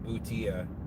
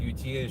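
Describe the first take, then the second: First: It is said with the Latin pronunciation. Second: It is said with an Anglicized pronunciation. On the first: The speaker calls it right. "should actually be butia" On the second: The speaker calls it wrong. "our uh, Anglicanization of the word"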